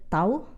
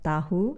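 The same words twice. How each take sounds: First: The h in the middle is silent. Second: The h in the middle is pronounced. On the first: It is the casual, everyday way of saying it. "usually you pronounce it tahu" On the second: It is the formal way of saying it. "instead of tahu"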